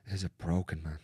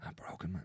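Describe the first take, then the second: First: Said in the usual way. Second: "A broken man" breathed out unvoiced, much softer; hushed, unvoiced "A broken man"; whispered repeat. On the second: Real, not acted. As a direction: let it fall to a whisper.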